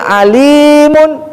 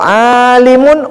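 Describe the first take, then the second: First: The first vowel is short, the second long. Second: The first vowel is long, the second short. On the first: It means all-knowing. "ainnya menjadi pendek, sekarang lamnya yang panjang" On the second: It means a learned person. "orang yang alim"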